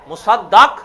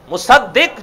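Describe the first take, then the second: First: The vowel before the final q is a. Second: The vowel before the final q is i. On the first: The one who is confirmed. "جس کی تصدیق کی جاتی ہے" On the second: The one who confirms something. "جو تصدیق کرتا ہے"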